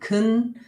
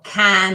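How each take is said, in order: First: The vowel is reduced to a weak schwa. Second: The vowel is a full, clear a sound. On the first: "weak form" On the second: "full form"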